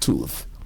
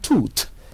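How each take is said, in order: First: The word ends with a th sound. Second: The word ends with a plain t sound. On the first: The speaker calls it right. "instead of the correct" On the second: The speaker calls it wrong. "pronouncing ... tooth as"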